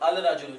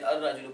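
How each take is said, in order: First: The l is pronounced clearly before the r. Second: The l merges into a doubled r sound. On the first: The speaker calls it wrong. "अल राजुलु नहीं पढ़ते" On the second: The speaker calls it right. "अर राजुलु पढ़ते हैं"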